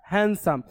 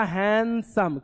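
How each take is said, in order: First: Said in the usual way. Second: "हैंडसम" drawn out in two beats; syllable by syllable. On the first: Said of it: "क्या लिखा?". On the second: Shown as a demonstration. Teacher showing pupils two syllables, "हैंडसम" split in two. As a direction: stretch the first syllable of "हैंडसम", then add the second. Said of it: "दो बार में उसका हम उच्चारण करते हैं".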